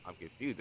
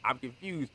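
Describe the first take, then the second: First: Said in the usual way. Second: "confused" louder and higher, falling hard; emphatic confused. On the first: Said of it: "It's not confused that, like, I'm confused". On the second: Shown as a demonstration. Explaining real confusion, she stresses "confused" in disbelief. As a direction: lean on "confused" in honest disbelief. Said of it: "It's like".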